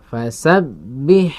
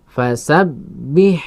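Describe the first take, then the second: The two takes are said the same way.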